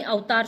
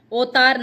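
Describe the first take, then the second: First: अवतार as au-taar; correct form. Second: अवतार as o-taar, loud; pure o at the start of अवतार; wrong form. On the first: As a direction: glide au at the start of अवतार. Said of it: "अवतार शुद्ध शब्द है". (सही उच्चारण, अवतार) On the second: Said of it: "अवतार नहीं". (गलत उच्चारण, ओतार) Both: Shown as a demonstration.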